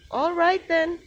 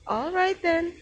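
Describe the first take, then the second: No difference in how they are said.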